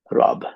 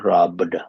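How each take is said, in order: First: It ends with b and no d. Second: It ends with a b followed by d. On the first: The speaker calls it wrong. "they end up not saying the da, but simply say rob" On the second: The speaker calls it right. "look at the sound, robbed"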